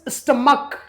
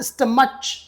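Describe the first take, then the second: First: The word ends with a k sound. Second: The word ends with a ch sound. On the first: The speaker calls it right. "The last sound is k" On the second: The speaker calls it wrong. "It is not stomach"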